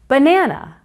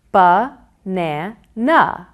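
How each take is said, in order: First: Said in the usual way. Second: Ba-na-na slowly in three separated beats; Ba-na-na pulled apart for counting; syllable counting. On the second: Shown as a demonstration. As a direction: pause after each syllable of Ba-na-na. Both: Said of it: "count the syllables".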